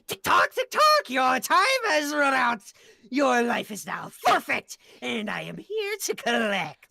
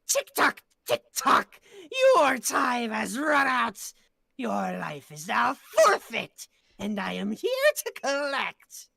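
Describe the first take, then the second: First: It is said at a faster pace. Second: It is said at a slower pace.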